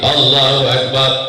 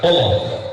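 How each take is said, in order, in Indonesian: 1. Frasa ini diucapkan dengan tempo sedang. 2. Frasa ini diucapkan sangat cepat.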